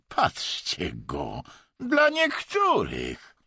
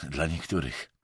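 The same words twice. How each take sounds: First: Derisive mockery. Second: Low, dispassionate jab; impassive. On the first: Vadim mocks Emerson's remark, derisively. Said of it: "nie wybuchnął szyderczym śmiechem". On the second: Emerson retorts without looking up, impassively. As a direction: put it down lower, without emotion. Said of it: "odparł beznamiętnie Emerson". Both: A narrator's reading.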